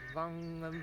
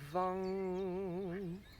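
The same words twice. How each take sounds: First: The sound is repeated quickly. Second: The sound is repeated slowly. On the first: "rapid repetitions, kind of like this" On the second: "you can do it much more slowly if you prefer, like this"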